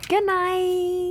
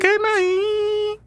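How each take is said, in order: First: High sing-song goodnight; high playful goodnight. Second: Squeaky falsetto goodbye; very high squeaky goodnight. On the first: Wife saying goodnight to listeners, high sing-song. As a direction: chirp it out. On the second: Husband echoing his wife's goodnight in falsetto. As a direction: squeak it back at her. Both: Acted.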